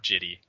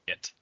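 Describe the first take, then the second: First: The word ends with an 'ee' vowel. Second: The word ends abruptly after the t sound. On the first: "or Jitty" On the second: "it's not pronounced Jit"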